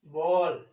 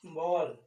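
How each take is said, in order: First: बॉल said loud and drawn out, open ऑ; first demo take. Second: बॉल repeated softly, open ऑ kept; softer repeat. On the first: Teacher showing students the ऑ sound, loud. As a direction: stress the open ऑ in बॉल firmly. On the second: Teacher repeating the word for students, softer. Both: Shown as a demonstration. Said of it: "आपने लिखा ऐसे".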